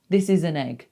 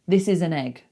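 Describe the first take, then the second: No difference in how they are said.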